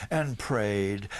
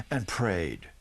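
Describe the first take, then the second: No difference in how they are said.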